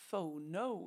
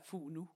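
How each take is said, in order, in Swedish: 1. Ordet uttalas på engelskt sätt. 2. Ordet uttalas på svenskt sätt. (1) "Jag tror att man uttalar det lite engelskt" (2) "på svenska skulle man säga fono"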